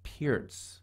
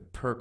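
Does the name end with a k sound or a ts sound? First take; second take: ts sound; k sound. First: The name ends with a ts sound. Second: The name ends with a k sound. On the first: The speaker calls it right. "the actual opening is supposed to be pronounced the Peartz opening" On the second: The speaker calls it wrong. "I've been calling it the Perk forever"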